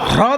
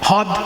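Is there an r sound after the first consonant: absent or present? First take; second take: present; absent. First: The word is said with an r after h. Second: The word is said with no r after h. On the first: "হয় রফলা দ" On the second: "রফলা বাদ দিয়ে বলা হ্রদ"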